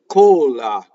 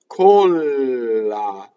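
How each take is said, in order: First: The L sound is short and quick. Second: The L sound is held long. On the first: "single L" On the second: "Double L"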